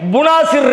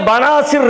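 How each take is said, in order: First: The first vowel is a u sound. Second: The first vowel is an a sound. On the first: "புனாசிர் இருக்கு" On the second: "அரபியில பனாசிர் இருக்கு"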